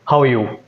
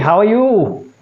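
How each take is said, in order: First: The pitch starts high and falls at the end. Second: The pitch starts low and rises at the end. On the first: The speaker sounds dominant. The speaker calls it right. "Dominant is like this. ... it starts at a higher pitch and it ends at a lower pitch" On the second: The speaker sounds submissive. The speaker calls it wrong. "And submissive is going up"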